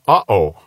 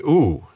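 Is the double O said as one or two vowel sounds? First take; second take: two; one. First: It is said as two separate vowel sounds. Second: It is said as one long vowel sound. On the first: The speaker calls it right. "you pronounce that uh-oh" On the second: The speaker calls it wrong. "in English, whenever we see two O's together, we think to say ooh"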